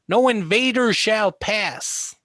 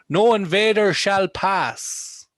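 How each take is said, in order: First: It is spoken in an American accent. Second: It is spoken in an Irish accent. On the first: "That's a mimic of the American accent"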